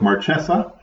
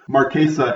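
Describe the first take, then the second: First: The name is pronounced an anglicized way. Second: The name is pronounced the Italian way. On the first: "Wizards has decided to go with Marchesa" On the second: "an appropriate Italian pronunciation"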